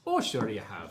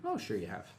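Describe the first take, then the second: First: Joking, put-on Irish lilt; mock Irish accent for a moment. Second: Said in the usual way. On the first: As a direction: say it in a playful Irish brogue. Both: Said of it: "You just became Irish for a little bit".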